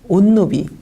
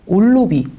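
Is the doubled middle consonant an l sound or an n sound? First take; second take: n sound; l sound. First: The middle consonants are a double n sound. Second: The middle consonants are a double l sound. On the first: "느느로 바뀌면 어떻게 되죠?" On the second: "르르로 바뀌면 어떻게 되죠?"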